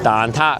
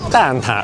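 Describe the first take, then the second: First: It is said with Cantonese sounds and tones. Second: It is said with Mandarin sounds and tones. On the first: "I was pronouncing it the Cantonese way" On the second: "they say"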